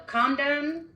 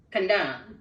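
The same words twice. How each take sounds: First: Slow "condone" with CON high and stressed; stress on first syllable. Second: "condone" as con-DONE, falling at the end; stress on second syllable. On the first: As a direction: lean on CON in "condone", rising at the end. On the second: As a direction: put the weight on DONE in "condone". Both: Shown as a demonstration. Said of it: "tried to do it on the syllable".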